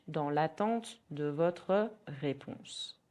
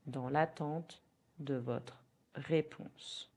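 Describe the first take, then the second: First: Slow, careful French; slow model phrase. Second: Slow repeat. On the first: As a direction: model it slowly. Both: Shown as a demonstration. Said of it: "In French".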